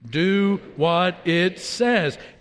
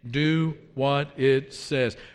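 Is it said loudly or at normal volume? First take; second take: loudly; normal volume. First: It is said loudly, in an outside voice. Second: It is said at normal volume.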